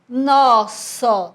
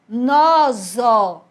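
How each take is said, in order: First: The middle consonant is a voiceless s sound. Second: The middle consonant is a voiced z sound. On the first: The speaker calls it right. "eu preciso que ele tenha o som de S" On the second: The speaker calls it wrong. "ele ia ficar com o som de Z"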